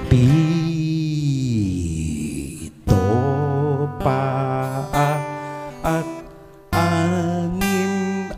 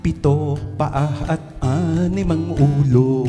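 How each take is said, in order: First: It is said very slowly. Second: It is said at a fast pace.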